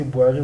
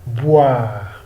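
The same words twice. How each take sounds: First: "boire" as bwa-RAY, final e sounded; wrong French reading, "boire" in two syllables; mispronunciation demo. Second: "boire" as one drawn-out "bwaar"; slow model "boire", one long syllable; French pronunciation demo. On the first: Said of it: "So we cannot say boire". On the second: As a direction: leave the final e of "boire" silent. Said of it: "We say boire". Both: Shown as a demonstration.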